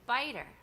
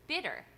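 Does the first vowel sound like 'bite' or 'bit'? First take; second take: bite; bit. First: The first vowel is long, as in 'bite'. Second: The first vowel is short, as in 'bit'. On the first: This is how the speaker had been saying the name. "I was saying biter" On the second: This is how someone else said the name. "But then I heard Bob Simpson Bob Simpson say bitter"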